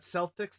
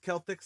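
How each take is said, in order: First: The word begins with an s sound. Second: The word begins with a k sound. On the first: It refers to the basketball team. The speaker calls it wrong. "This isn't about basketball" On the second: It refers to the ancient Celtic peoples. The speaker calls it right. "third k sound"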